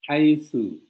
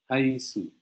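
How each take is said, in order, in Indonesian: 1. Konsonannya bunyi th yang lembut. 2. Konsonannya bunyi s biasa. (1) "di sini di huruf sa" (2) "jadi jangan seolah-olah nanti kedengaran haitsu"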